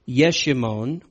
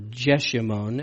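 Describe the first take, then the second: First: The name is said in its original form. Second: The name is said in its English form.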